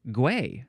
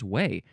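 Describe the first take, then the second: First: The word begins with a hard G sound. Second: The word begins with a W sound. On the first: The speaker calls it wrong. "Oh, gway, I guess" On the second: The speaker calls it right. "maybe there's no G sound at all. It's literally just way"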